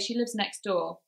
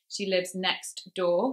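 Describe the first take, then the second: First: The T is dropped, going straight to D. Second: The T at the end of next is pronounced. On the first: "we go straight to the D sound" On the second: "we have to say next and really put the effort in there"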